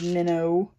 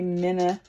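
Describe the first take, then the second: First: The word ends in a standard 'oh' sound. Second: The word ends in a Southern 'uh' sound. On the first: "instead of minnow" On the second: "We say minna instead of minnow"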